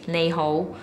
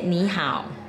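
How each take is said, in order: First: It is pronounced with Cantonese sounds. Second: It is pronounced with Mandarin sounds. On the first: "in Cantonese is" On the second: "in Mandarin you say"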